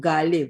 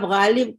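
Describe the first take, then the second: First: غالب said with hard g, as "Gaalib"; mispronunciation. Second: غالب with a throaty gh sound; correct pronunciation. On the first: Urdu teacher showing students the ruinous error, غالب mispronounced as Gaalib. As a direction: swap the ghain in غالب for a plain g. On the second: Urdu teacher showing students the proper word, correct ghain in غالب. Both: Shown as a demonstration. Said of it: "اگر آپ غالب کو غالب".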